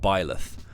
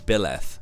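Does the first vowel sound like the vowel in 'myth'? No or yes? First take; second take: no; yes. First: The first vowel is unlike the vowel in myth. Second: The first vowel sounds like the vowel in myth. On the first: The speaker calls it wrong. "because Byleth sounds really weird" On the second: The speaker calls it right. "which I would pronounce as Byleth"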